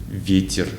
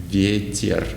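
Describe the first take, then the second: No difference in how they are said.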